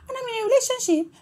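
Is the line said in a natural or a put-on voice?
put-on. It is said in a put-on character voice.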